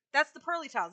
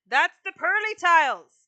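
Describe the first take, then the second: First: Said in the usual way. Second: Louder and higher, leaning hard on tiles; insist, as if they aren't listening; emphatic loud insistence. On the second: Real, not acted. Streamer insisting to her chat, loud and emphatic.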